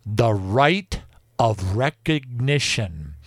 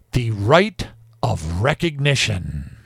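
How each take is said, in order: First: Each word spelled out slowly, "rite" leaned on; slow, stressed. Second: "rite" leaned on and the whole phrase drawn out; slow down and weigh "rite"; slow, stressed. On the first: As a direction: lay weight on "rite" and draw it out. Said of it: "listen to this". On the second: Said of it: "are you ready for this? Quote". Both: Shown as a demonstration.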